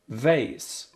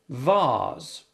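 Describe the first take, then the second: First: It is said in an American accent. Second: It is said in a British accent.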